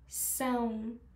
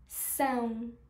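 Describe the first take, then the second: First: The vowel is nasal, sounding through the nose. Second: The same.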